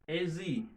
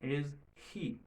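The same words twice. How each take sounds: First: The words link with a z sound, no h. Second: The words stay separate and the h is heard. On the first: "On va faire liaison. On son z au milieu" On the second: "si on pas faire liaison, son H là sorti"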